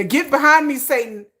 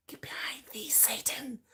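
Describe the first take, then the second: First: Said in the usual way. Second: Whispered rebuke, voice dropped away. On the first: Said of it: "first take". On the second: Shown as a demonstration. Warding off men's devil energy, in a whisper. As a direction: whisper "Get behind me, Satan" like a warding prayer. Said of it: "repeats it whispered".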